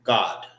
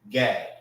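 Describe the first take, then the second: First: "God" with a short open o and a firm d; Hebrew God. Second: "Gad" said with an open a, like apple. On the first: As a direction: say "God" the Hebrew way, ending hard on D. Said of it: "Not G O D, but God". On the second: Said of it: "And how you say Gad in the Hebrew?". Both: Shown as a demonstration.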